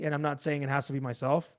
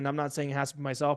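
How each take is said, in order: First: It is said with varied, expressive tonality. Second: It is said plainly, without expressive tonality. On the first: The speaker calls it right. "You guys see how that works with tonality" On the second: The speaker calls it wrong. "if you go down that path, it's not going to work"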